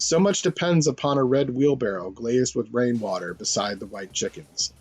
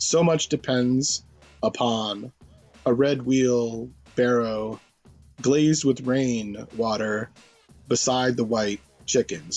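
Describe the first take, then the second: First: It is read smoothly, like ordinary prose. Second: It is read with broken, poem-like phrasing.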